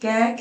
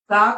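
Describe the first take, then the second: First: The consonant ends in an 'ai' vowel. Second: The consonant ends in a long 'aa' vowel. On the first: "कुछ लोग बोलते हैं" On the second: "आप में से कुछ लोग इसको कैसे बोलते होंगे"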